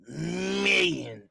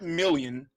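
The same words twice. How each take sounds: First: The middle sound is a Y glide. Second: The middle sound is a clear L. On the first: "You spell it with a Y instead of an L" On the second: "not million"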